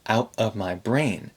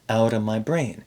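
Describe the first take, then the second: First: The T in out is a glottal stop. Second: The T in out is a quick tap. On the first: The speaker calls it wrong. "He's saying out, uh, out of my brain ... he's doing a very strong glottal stop here" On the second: The speaker calls it right. "Normally you would tap the T between the two vowels. Outa"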